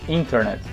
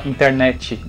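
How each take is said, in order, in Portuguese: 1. A tônica fica na primeira sílaba. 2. A tônica fica na última sílaba. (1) "O in é o mais forte" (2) "o finalzinho mais forte"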